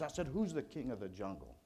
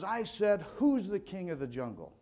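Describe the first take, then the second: First: Said in the usual way. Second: A touch higher, pushed question; hammed-up lion demanding an answer; mock roaring lion. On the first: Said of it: "he puffs out his chest and his mane". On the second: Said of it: "he lets out a, a mighty roar".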